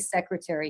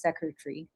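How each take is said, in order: First: The word is said with an American pronunciation. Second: The word is said with a British pronunciation. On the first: This is the expected pronunciation he fails to use. The speaker calls it right. "He doesn't say secretary" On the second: This is the pronunciation that slips out. The speaker calls it wrong. "he says secretary, which is very different"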